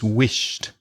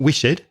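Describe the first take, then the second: First: The ending is pronounced as a t. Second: The ending is not pronounced as a t. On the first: The speaker calls it right. "you can hear a t for the ed" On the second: The speaker calls it wrong. "So it's not wished"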